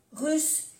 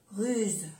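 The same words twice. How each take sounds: First: "Russe" pitched high, ending in an unvoiced s; double S. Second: "ruse" falling, ending in a voiced z; soft Z. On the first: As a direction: lift "Russe" and end on a hiss. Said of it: "pronunciar bien las dos S". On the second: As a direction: say "ruse" with a final buzz. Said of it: "se pronuncia como una Z suave". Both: Shown as a demonstration.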